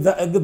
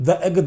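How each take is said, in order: The two takes are said the same way.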